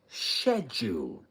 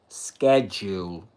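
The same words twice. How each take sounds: First: The word has the British pronunciation. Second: The word has the American pronunciation. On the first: "U K. It says schedule" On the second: "American English or U S schedule"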